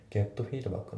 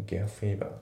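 First: Said in the usual way. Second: "get feedback" with the T of "get" left almost silent; dropped T. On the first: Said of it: "getのTがほぼ発音されてない". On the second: Shown as a demonstration. Teacher showing learners the unpronounced T in "get feedback", dropped T. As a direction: run "get" straight into "feedback", swallowing its T. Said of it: "getのTがほぼ発音されてないですね".

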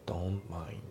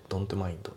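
First: "Don't mind" as "don mind", no T; dropped T. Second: "Don't mind" in katakana style, "donto maindo"; fully sounded T. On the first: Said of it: "Tが抜けますね". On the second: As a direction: sound every consonant of "Don't mind" with added vowels. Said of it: "じゃなくて". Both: Shown as a demonstration.

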